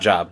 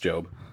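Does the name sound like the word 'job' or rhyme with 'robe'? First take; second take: job; robe. First: The vowel sounds like in the word 'job'. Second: The vowel is long, rhyming with 'robe'. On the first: The speaker calls it wrong. "It's not Job" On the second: The speaker calls it right. "No, it's Job"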